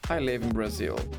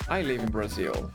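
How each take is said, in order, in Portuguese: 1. A palavra Brazil tem a ênfase principal. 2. A palavra Brazil tem a ênfase principal.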